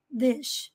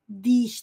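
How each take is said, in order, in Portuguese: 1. A vogal é curta e frouxa, com os lábios relaxados. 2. A vogal é tensa, com os lábios esticados como em ee. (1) "com a boca relaxada, os lábios relaxados" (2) "tensionando, estirando os lábios"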